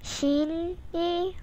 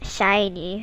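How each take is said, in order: First: The first syllable sounds like 'shin'. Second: The first syllable sounds like 'shine'. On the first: The speaker calls it wrong. "it's not pronounced as Shin, Shin-y" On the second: The speaker calls it right. "It's more like shiny"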